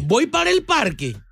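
It is said as a question, rising.

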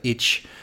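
The word ends in a 'tch' sound. This is how it is said in the South. "it's like itch in the South"

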